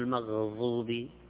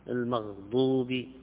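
First: The emphatic consonant is pronounced like dha. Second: The emphatic consonant is pronounced like dad. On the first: The speaker calls it wrong. "ما هو المغضوب" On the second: The speaker calls it right. "ويجب أن يصحح يقال مغضوب"

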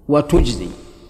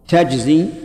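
First: The verb is said in the Tamimi form. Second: The verb is said in the Hijazi form. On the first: "تجزي لغة ثانية ... والثانية لغة بني تميم" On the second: "تجزي من الثلاثي، من جزى ... اللغة الأولى لغة الحجازيين"

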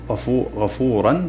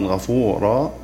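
First: The word ends with an n sound. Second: The word ends with a long a vowel. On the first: The word is joined to what follows. "كما تقول غفورا" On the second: The reader stops on this word. "تنطقها وقفا غفورا"

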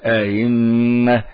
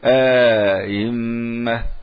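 First: The second hamza is softened with no inserted vowel. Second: A long 'a' is inserted between the two hamzas. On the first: The speaker calls it right. "يسهل همزة الثانية فقط ولا يدخل" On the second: The speaker calls it wrong. "لا يقول أئمة"

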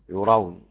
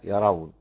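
First: The first vowel is u, as in yurawna. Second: The first vowel is a, as in yarawna. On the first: "ابن عامر بضم الياء" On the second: "والباقي بفتحها"

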